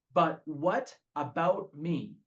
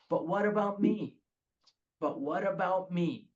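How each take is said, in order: First: Slow, drawn-out "But what about me?" with "But" leaned on; slow self-pitying whine; whiny battle cry. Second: Self-pitying mock plea; whiny refrain. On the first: Retold or imitated. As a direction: drag it out like a sulking child. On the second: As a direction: press it like a petulant demand. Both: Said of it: "the battle cry of this alcoholic".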